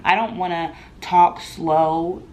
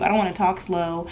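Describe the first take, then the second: First: "slow" drawn right out, whole line slowed; talking slow. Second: Said in the usual way. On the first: Shown as a demonstration. Refusing to talk down to a non-English speaker, slow. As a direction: stretch "talk slow" to show slow speech. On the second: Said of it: "Me saying it slower is not gonna help".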